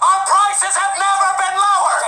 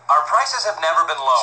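First: It is yelled very loudly. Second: It is said at a normal volume.

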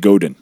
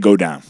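First: The name is said with an American pronunciation. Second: The name is said with a French Montreal pronunciation. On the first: "if you're American, you probably say Godin" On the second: "But they say go down"

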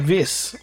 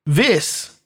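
First: The name is said with low energy. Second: The name is said with high energy.

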